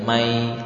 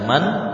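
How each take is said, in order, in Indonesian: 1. Bunyi n menyatu menjadi bunyi y yang sengau. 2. Kata ini berakhir dengan bunyi n yang jelas. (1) "kemudian masuk ke ya menjadi mai" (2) "Asalnya dibaca man"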